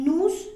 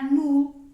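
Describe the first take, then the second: First: The final S is sounded. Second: The final S is silent. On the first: The speaker calls it wrong. "no vamos a decir" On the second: The speaker calls it right. "esas últimas S no se van a pronunciar"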